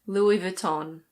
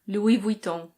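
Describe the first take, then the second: First: It is said with a British pronunciation. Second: It is said with a French pronunciation. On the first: "In British English, it's Louis Vuitton" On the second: "In French, this is pronounced Louis Vuitton"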